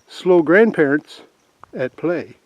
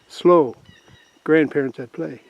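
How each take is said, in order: First: The phrase runs on without a pause after slow. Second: There is a pause after the word slow. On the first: The grandparents playing there are slow. "But if you say slow grandparents at play, hmm, I wonder" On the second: Drivers should slow down because grandparents are playing. "if you say it like that, it doesn't sound too bad"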